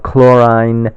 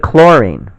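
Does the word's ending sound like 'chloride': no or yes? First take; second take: yes; no. First: The ending sounds similar to chloride. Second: The ending does not sound like chloride. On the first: The speaker calls it wrong. "We don't say bromine or chlorine because that would be confusing because it sounds similar to chloride and bromide" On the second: The speaker calls it right. "we say chlorine, right?"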